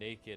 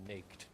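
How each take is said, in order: First: It is said with two syllables. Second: It is said with one syllable, rhyming with baked. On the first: "why do we call it naked" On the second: "and not uh, naked?"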